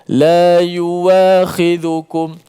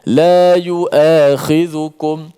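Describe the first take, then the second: First: A w sound follows the first syllable. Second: A glottal stop follows the first syllable. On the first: This follows another recitation tradition. "dia baca dengan waw" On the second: This follows the speaker's own recitation tradition. "riwayat kita baca dengan hamzah"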